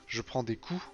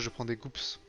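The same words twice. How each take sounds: First: The final P and S are silent. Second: The final P and S are pronounced. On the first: The speaker calls it right. "quand tu dis en français" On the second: The speaker calls it wrong. "tu dis pas"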